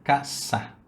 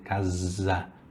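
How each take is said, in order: First: The middle consonant is a hissing s sound. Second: The middle consonant is a buzzing z sound. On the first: "É um S, sa" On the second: "tem um Z"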